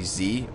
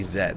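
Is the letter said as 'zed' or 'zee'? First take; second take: zee; zed. First: It is said the American way, as 'zee'. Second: It is said the Canadian way, as 'zed'.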